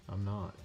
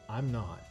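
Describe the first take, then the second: No difference in how they are said.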